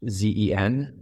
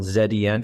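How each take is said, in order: First: The letter Z is said as zee. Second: The letter Z is said as zed.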